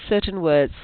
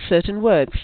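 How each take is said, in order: The two takes are said the same way.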